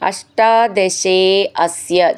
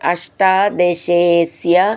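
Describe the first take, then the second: First: The two words are said separately. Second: The two words are merged into one.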